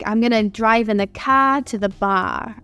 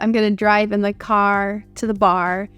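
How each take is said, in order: First: The R sounds after vowels are dropped. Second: The R sounds after vowels are pronounced. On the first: "in this accent, they're dropping that R sound at the end of words" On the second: "which means"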